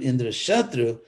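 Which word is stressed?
Shatru. The accent falls on Shatru. This person will be the mortal enemy of Indra. The speaker calls it right. "An accent Shatru"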